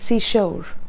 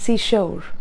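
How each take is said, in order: First: It is said in a stylized foreign accent. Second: It is said in a stylized foreign accent.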